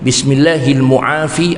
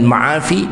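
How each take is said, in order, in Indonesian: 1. Kata setelah bismillahil dimulai dengan mu. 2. Kata setelah bismillahil dimulai dengan ma.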